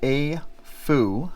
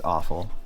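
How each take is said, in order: First: The word ends in an 'oo' sound. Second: The word ends in an 'L' sound. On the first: The speaker calls it right. "It's pronounced A-Fu" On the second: The speaker calls it wrong. "just so we stop calling it awful"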